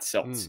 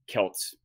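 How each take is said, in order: First: The word begins with a soft S sound. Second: The word begins with a hard K sound. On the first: This is the older form still used for sports teams. The speaker calls it wrong. "it's still phonetically correct to say it with an S sound" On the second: This is the form scholars now prefer for the ancient people. The speaker calls it right. "it is correct to call the European peoples Celts"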